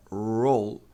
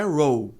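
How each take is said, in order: First: "roll" ending with tongue on palate; slow English "roll", dark L held without vowel; correct final L. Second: "roll" as "row", L turned to a vowel; wrong pronunciation. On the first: Teacher models for learners, closed L. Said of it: "Encostando a língua". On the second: Teacher shows the error, vowel-like L. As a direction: open ending in "roll", tongue not touching. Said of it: "Então não é roll". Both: Shown as a demonstration.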